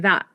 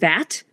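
First: The final T is a glottal stop. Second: The final T is fully released.

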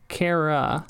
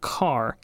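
First: The first part is said as two syllables. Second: The first part is said as one syllable. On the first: The speaker calls it right. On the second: The speaker calls it wrong. "Not car"

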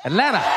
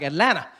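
First: The middle T sound is dropped. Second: The same.

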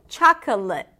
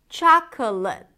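No difference in how they are said.

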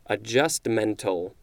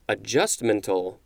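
First: The stress is on the syllable 'men'. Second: The stress is not on the syllable 'men'. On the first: "it's showing that the emphasis is on the men" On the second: "It seems like it should be adjustmental, but that doesn't sound right"

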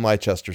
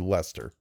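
First: It is not said as two-syllable 'Lester'. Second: It is said as two-syllable 'Lester'. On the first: The speaker calls it wrong. "That's probably not how that's pronounced at all" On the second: The speaker calls it right. "It's going to be Lester"

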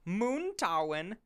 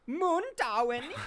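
First: The name is said plainly, without exaggeration. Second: The name is said with an over-the-top German accent.

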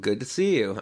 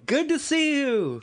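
First: It is said in a calm, low-key way. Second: It is said in an excited, exclamatory way. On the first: A plain, restrained greeting. The speaker calls it right. "I'll say, well, maybe I'll see you later, or well, good to see you" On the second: An enthusiastic greeting, like an exclamation point. The speaker calls it wrong. "I'm not going"

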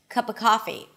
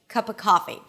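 Both takes have the same delivery.

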